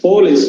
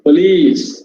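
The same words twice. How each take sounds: First: The stress is on the first syllable. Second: The stress is on the last syllable. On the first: The speaker calls it wrong. "We say first syllable as stressed. Not so" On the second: The speaker calls it right. "the last syllable is stressed"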